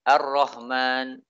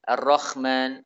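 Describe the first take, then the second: First: The h is replaced by a plain soft h. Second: The h is replaced by a rough kh sound. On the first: "diganti dengan ha, suara ha" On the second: "Suara ha diganti dengan kha"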